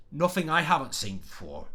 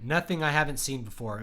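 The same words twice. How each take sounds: First: Put-on Cockney voice, th slurred in "Nothing"; Cockney accent. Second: Said in the usual way. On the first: Shown as a demonstration. Writing teacher shows viewers a character's dialect, Cockney accent. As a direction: read the line as a Cockney would. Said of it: "like, a Cockney accent, he'd say". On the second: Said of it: "If he speaks with, like, a Cockney accent".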